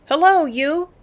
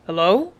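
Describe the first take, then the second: First: High, loud, calling Hello down; loud holler. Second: Said in the usual way. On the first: A narrator's reading. Girl on the stern hollering at the swimming native, high and loud. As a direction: holler it as loud as you can. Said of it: "I hollered as loud as I could". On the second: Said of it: "Father called back".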